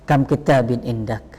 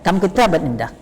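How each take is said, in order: First: "kam kitabin indak" said lower, as an exclamation and not a question; exclamatory intonation. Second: "kam kitaban indak" said as a genuine question, lightly raised in pitch; question intonation. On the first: Teacher demonstrating to students the exclamatory "kam kitabin indak". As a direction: marvel at "kam kitabin indak", as if boasting how many books you have. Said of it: "Khabariyah ya".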